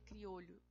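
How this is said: The double L is said the Spanish way. "no caso da Espanha, se fala, falaria criolho"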